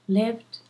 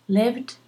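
No difference in how they are said.

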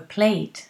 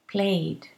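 First: The ending is a strong t sound. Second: The ending is a plain d sound.

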